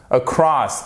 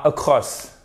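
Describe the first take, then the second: First: Across with weak first vowel and open stressed second; correct across. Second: Across with a rounded French o; wrong across. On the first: Teacher giving learners the next word, correct across. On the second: Teacher showing learners what to avoid, wrong across. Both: Shown as a demonstration. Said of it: "et pas across".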